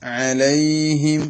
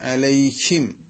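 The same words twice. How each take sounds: First: The h is breathed lightly from the lower throat. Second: The h is pushed forcefully over the tongue. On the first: The speaker calls it right. "അ ഹ" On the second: The speaker calls it wrong. "വേറൊരു തെറ്റ് ഹായിന് വരാറുള്ളത്"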